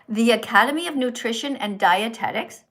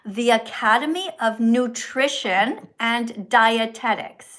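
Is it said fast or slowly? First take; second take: fast; slowly. First: It is said at a quicker pace. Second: It is said at a slower pace.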